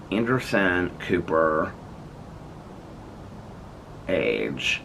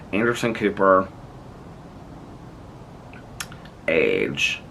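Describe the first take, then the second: First: Slow, drawn-out phone dictation. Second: Said in the usual way. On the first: Real, not acted. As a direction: spell it out for the phone.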